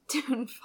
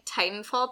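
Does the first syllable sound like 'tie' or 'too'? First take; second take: too; tie. First: The first syllable sounds like 'too'. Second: The first syllable sounds like 'tie'. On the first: The speaker calls it wrong. "Because T-2-T-A-N-F-A-L, Tootenfall, because it's a 2" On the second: The speaker calls it right. "I'm surprised you said it that way"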